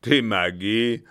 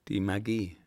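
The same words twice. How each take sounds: First: Loud, disbelieving echo; scornful captain. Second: Said in the usual way. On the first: Acted. Captain echoes the German's answer with loud contempt. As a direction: throw the word back with contempt.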